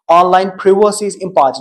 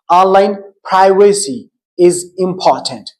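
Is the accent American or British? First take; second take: British; American. First: It is said in a British accent. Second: It is said in an American accent. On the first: "This is British English" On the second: "While in American English"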